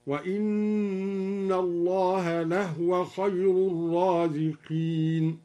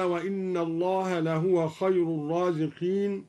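First: Slow recitation, لهو said lahwa with a vowelless ha; silent vowel on ha. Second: Said in the usual way. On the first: Shown as a demonstration. Teacher demonstrates al-Duri's reading, slowly reciting لهو as lahwa. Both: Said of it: "سكن الهاء هكذا".

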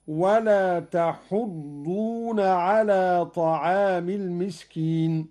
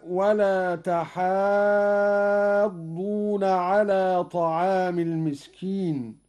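First: تحضون with short u, "tahuddoona"; damma on ha. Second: تحاضون with a very long "haa", "tahaaaddoona"; long alif. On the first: Teacher showing Qalun's reading, تحضون as "tahuddoona". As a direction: round the ح of تحضون, no long alif. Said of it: "وحذف الألف هكذا". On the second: Teacher citing the verse, تحاضون with prolonged aa. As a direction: stretch the ا of تحاضون before the doubled ض. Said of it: "بضم الحاء". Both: Shown as a demonstration.

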